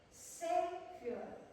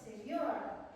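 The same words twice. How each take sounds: First: The stress is on the first syllable. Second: The stress is on the second syllable. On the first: The speaker calls it right. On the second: The speaker calls it wrong. "bukan savior"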